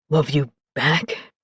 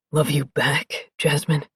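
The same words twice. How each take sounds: First: Low, slow, wondering question; deep male voice asking. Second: Deep male voice. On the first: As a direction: ask it low, hardly believing. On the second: Sarge voiced low. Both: Acted.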